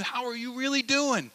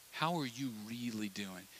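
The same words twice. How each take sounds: First: Much higher, emphatic "doing"; pressing ask. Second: Softer, intimate question; soft probing ask. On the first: Friend demands honest answer, high and urgent. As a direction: push the question up hard. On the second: Friend probing softly across the table. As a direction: ask it gently and close. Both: Retold or imitated. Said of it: "They're saying".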